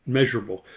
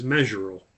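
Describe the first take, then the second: First: "Measurable." said again in full, every syllable clear; "Measurable." restated cleanly as a self-correction; careful correction. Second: "measurable" slurred and cut short, swallowed to "mzher"; "measurable" rushed, middle syllables dropped; garbled word. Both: Real, not acted.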